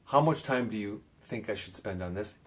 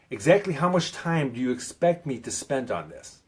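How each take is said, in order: First: Said in the usual way. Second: "Exactly" punched up front, pressing for an answer; pinning down. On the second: Shown as a demonstration. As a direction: pin them down, leaning hard on "Exactly". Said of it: "wanna pin 'em down".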